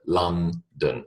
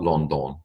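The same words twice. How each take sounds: First: The vowels are said as reduced A-like sounds. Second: The vowels are said as full O sounds. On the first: The speaker calls it right. "it is A E, London" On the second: The speaker calls it wrong. "It is not London ... it is not O O"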